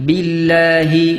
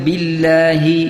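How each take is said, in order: Both takes have the same delivery.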